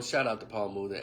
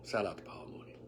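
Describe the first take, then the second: First: Said in the usual way. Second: Unvoiced whisper of the shout out; whispered aside to the late comedian. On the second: Shown as a demonstration. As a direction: breathe it out as a quiet tribute.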